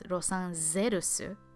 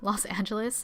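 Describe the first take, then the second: First: It is said with Japanese sounds. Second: It is said with English sounds.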